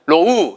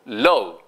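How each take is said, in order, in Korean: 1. 모음은 입술 모양 하나로 그대로 유지됩니다. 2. 입술이 더 둥글어지면서 모음이 미끄러집니다. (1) "이건 아니고요" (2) "입술이 두 번 움직인다는 뜻이에요"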